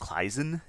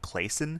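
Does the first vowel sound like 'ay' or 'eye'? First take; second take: eye; ay. First: The first vowel sounds like 'eye'. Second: The first vowel sounds like 'ay'. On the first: This is the German pronunciation. "this would be pronounced Kleisen in German" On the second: This is the common American pronunciation. "most Americans pronounce this"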